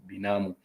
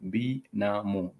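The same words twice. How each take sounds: First: Said in the usual way. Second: "binamu" slowly split as bi, na, mu; syllable by syllable. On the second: Shown as a demonstration. Teacher sounding out the word for cousin, syllable by syllable. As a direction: sound out "binamu" in three separate slow syllables.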